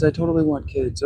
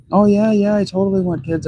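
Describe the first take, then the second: First: Mock girlfriend repeat. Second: Mock eager girlfriend. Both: Mocking ex-partner's promise.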